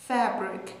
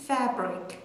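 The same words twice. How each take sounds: The two takes are said the same way.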